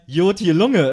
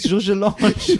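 First: The name is said in Cologne dialect. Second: The name is said in standard pronunciation. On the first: "ihr meint Jotje Lunge ... wenn man nicht aus Köln kommt" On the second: "der hieß Georges Lange"

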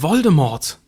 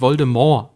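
First: The final t is pronounced. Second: The final t is silent. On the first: The speaker calls it wrong. "Das ist falsch" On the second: The speaker calls it right. "er wird tatsächlich Voldemort ausgesprochen"

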